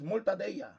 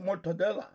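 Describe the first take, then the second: First: The word is pronounced the Spanish way. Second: The word is pronounced the non-Spanish way. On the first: The speaker calls it right. "that's what we say in Spanish" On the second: The speaker calls it wrong. "people don't say mortadella"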